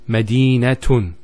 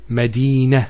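First: The word ends with a t sound and -un. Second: The word ends with a soft h sound. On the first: The word carries a case ending. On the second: The speaker stops on this word.

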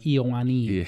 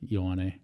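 First: The name is said like 'Iowani'. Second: The name is said like 'Ioane'. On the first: Other people mispronounced the name this way. The speaker calls it wrong. "they would pronounce my name Iowani" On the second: The name's owner pronounces it this way. The speaker calls it right. "And how do you pronounce it?"

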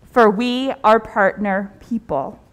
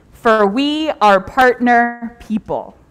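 The two takes are said the same way.

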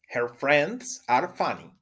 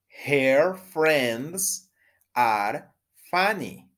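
First: The sentence is said at a fast pace. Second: The sentence is said at a normal pace.

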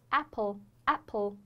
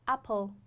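First: The first vowel is wide with spread lips. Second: The first vowel is a plain open 'ah'. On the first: The speaker calls it right. "是apple cash cash 这样一个发音" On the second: The speaker calls it wrong. "不要发成啊，不要说apple"

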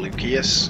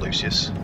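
First: The name is said with a Latin pronunciation. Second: The name is said with an English pronunciation.

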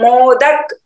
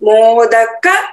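First: The word ends on a bare final consonant. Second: The word ends with a full final vowel. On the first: The speaker calls it wrong. "हम मोदक नहीं बोल सकते हैं" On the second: The speaker calls it right. "यहां पर हलंत नहीं है"

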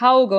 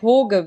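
First: The name has an au vowel sound. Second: The name has a plain o vowel sound. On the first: "es ist nicht Hauge" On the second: "es ist auch nicht Hoge, wie Sky das immer gesagt hat"

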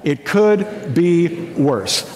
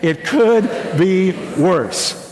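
First: It is said flatly, without conviction. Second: It is said with heartfelt conviction.

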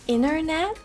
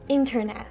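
First: The middle T is left silent. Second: The middle T is clearly pronounced.

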